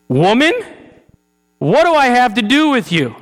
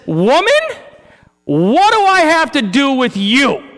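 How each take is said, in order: First: Loud, high stern Woman, stress on do; the emphatic take again; emphatic rebuke. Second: Loud, high, stern Woman and do; a sharp, emphatic confrontation; emphatic rebuke. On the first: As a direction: rebuke her firmly. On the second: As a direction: scold his mother with full emphasis. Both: Shown as a demonstration. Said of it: "emphasis, mine".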